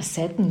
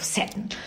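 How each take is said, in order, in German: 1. Das Wort wird weich, sanft ausgesprochen. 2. Das Wort wird hart, schroff ausgesprochen. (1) "es ist ja viel weichlicher" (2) "ich wollte es halt immer Metal und härter aussprechen"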